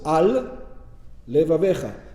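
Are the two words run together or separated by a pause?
separated. A short pause separates the two words. The speaker calls it right. "You have to pause"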